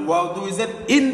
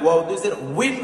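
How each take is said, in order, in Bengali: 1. শেষ দলটি হলো সাধারণ 'in', w ছাড়া। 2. শেষ দলটি w ধ্বনি দিয়ে শুরু হয়। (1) "যাতে না হয়ে যায়" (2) "উইন হবে"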